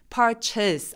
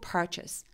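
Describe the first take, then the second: First: The first syllable is forced, loud and high-pitched. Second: The first syllable is at normal pitch, ending relaxed. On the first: The speaker calls it wrong. "purchase 해서 목소리가 높아지면 어색합니다" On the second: The speaker calls it right. "par는 원래 내 목소리고요. chest 부분을 힘을 쫙 빼시면 돼요"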